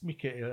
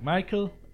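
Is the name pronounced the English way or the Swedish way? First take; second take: Swedish; English. First: The name is pronounced the Swedish way. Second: The name is pronounced the English way. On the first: "I don't know how the Swedish pronounce it. I think it's Mikael" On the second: "the English pronounce probably Michael"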